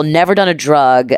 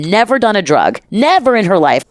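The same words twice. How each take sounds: First: Said in the usual way. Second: "never done a drug" pitched higher with weight on "done"; insisting "never done a drug" to the hosts; emphatic repeat. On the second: Acted. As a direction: lean hard on "done" to insist.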